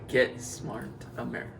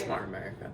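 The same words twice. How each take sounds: First: It is said louder. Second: It is said at a normal, quieter volume.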